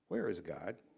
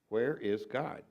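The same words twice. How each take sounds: First: It is said sternly at a moderate volume. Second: It is said more sternly and louder.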